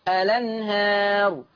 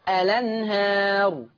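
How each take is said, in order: Both takes have the same delivery.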